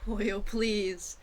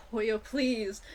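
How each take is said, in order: Both takes have the same delivery.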